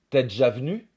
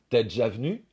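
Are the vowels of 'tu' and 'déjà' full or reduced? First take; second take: reduced; reduced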